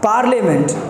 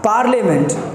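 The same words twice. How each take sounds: First: The middle syllable sounds like 'le'. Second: The middle syllable sounds like 'le'.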